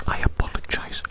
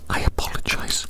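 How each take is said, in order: Both takes have the same delivery.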